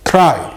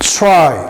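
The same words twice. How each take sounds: First: The tr starts with a plain t sound. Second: The tr starts with a ch-like sound. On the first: The speaker calls it wrong. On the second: The speaker calls it right.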